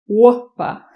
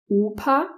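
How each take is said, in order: First: The vowel glides toward another vowel sound. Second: The vowel stays pure and steady throughout. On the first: The speaker calls it wrong. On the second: The speaker calls it right.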